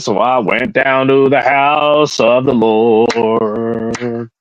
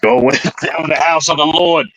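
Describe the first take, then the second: First: It is said in the speaker's plain voice. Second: It is said in a New York accent.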